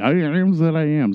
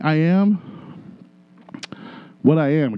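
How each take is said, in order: First: It is said in a Popeye impression voice. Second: It is said in his normal voice.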